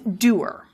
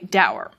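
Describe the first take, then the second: First: The word rhymes with doer. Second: The word rhymes with sour. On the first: "Prescriptive guides will say, no, no, it's doer" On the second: "which many people want to sound like sour"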